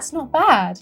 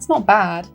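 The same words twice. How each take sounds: First: It is said in a warm, enthusiastic tone. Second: It is said in a hesitant, lukewarm tone. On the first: The person really likes it. "他可能是非常喜欢" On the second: The person does not really like it. "那就是不是很喜欢"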